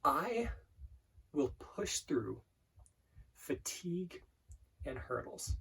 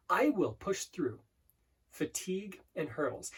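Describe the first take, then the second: First: Very slow, hushed, with long pauses; slow mantra. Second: "I will" drawn out and stressed, then a pause; emphasis on I WILL. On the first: Coach slowing an affirmation right down, slow mantra. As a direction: breathe out each phrase softly, leaving space. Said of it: "I'm going quite fast right now". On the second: Coach showing emphasis on different words, stressed "I will". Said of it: "hear me put emphasis on different words". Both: Shown as a demonstration.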